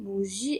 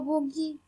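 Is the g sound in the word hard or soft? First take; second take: soft; hard. First: The g is soft, like the s in measure. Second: The g is hard, like the g in go. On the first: The speaker calls it right. "on dit bougie" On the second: The speaker calls it wrong. "et pas boogie"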